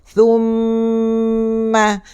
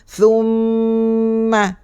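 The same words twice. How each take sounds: The two takes are said the same way.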